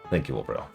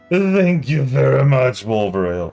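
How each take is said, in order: First: It is said in the speaker's natural voice. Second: It is said in a put-on character voice.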